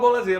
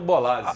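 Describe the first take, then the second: First: The middle consonant is a z sound. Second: The middle consonant is an s sound. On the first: This is how most people say the name. The speaker calls it wrong. "todo mundo fala Bolazzi" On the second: This is the proper pronunciation of the name. The speaker calls it right. "o correto é o Bolazzi"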